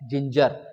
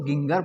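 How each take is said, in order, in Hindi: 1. इसकी शुरुआत J ध्वनि से होती है। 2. इसकी शुरुआत हार्ड G ध्वनि से होती है। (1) "ये है जिंजर" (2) "बहुत सारे बच्चे इसको गिंगर पढ़ते हैं, पर ये गलत है"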